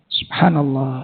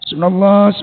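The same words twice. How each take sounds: First: The phrase is said slowly and fully. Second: The phrase is said fast and clipped. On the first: It is proper remembrance with full meaning. The speaker calls it right. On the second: It is rushed and loses its meaning. The speaker calls it wrong. "Jadi subhanallah jadi sumblo"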